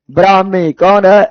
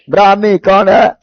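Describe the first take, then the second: No difference in how they are said.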